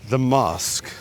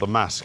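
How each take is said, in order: First: Mask is said with a southern English vowel. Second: Mask is said with a northern English vowel.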